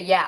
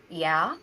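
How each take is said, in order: First: Said in the usual way. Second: Timid yeah, lower and rising like a question; mildly scared, unsure little admission. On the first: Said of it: "even say". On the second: Retold or imitated. Actress answering casting director about Mexico, mildly scared. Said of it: "I was so scared".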